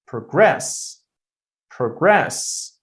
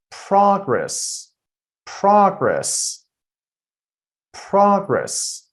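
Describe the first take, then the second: First: "progress" as pruh-GRESS, short weak first syllable; stress on second syllable. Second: "progress" as PROG-ress, high first syllable, falling after; stress on first syllable. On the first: Teacher demonstrating the verb to students, "progress" stressed on GRESS. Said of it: "I'm putting the stress on the second syllable". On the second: Teacher demonstrating the noun to students, "progress" stressed on PROG. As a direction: punch the "prog" in "progress", high then dropping. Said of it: "I'm putting the stress on the first syllable". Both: Shown as a demonstration.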